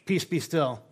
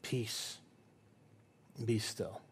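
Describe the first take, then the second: First: "Peace, be still" tossed off fast and casual; offhand, tired dismissal. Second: "Peace" very softly, then "Be still" low and gentle; soft, calm command. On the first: Retold or imitated. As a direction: brush the storm away like a sleepy dad. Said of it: "finally he goes". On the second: Shown as a demonstration. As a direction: hush the storm with a quiet voice.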